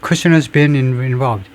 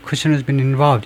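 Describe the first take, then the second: First: Each word is said separately with breaks. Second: It flows quickly with weak auxiliaries.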